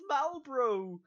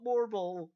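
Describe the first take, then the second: First: The name is said as Malbro. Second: The name is said as Morbol. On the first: The speaker calls it right. "it's Malbro" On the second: The speaker calls it wrong. "it's not Morbol"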